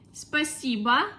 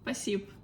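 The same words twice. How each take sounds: First: The word is said fully, every syllable clear. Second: The word is said quickly with sounds dropped.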